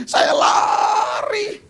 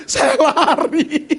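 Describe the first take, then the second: First: High, crying shout; mock panicked cry. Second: Slow, loud, laughing through it; laughing run. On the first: Pastor retelling his frantic run to the lost man, high crying shout. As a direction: wail it high like a panicked runner. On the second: Retold or imitated. Pastor retelling his run to the lost man, slow and laughing. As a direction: drag the words out while laughing.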